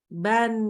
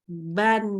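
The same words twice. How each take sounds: The two takes are said the same way.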